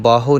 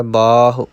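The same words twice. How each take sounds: First: ਬਾਹੋ with a long final "o"; wrong long ending. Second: ਬਾਹੁ with a long "aa", short final "u"; short final vowel. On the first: Teacher warns learners off ਬਾਹੋ, said with long final o. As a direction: end ਬਾਹੋ on a full long o. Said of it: "ਇਹਨੂੰ ਬਾਹੋ ਨਹੀਂ ਕਹਿਣਾ". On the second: Teacher shows learners ਬਾਹੁ, ending on short u. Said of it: "ਧਿਆਨ ਰੱਖਣਾ ਹੈ". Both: Shown as a demonstration.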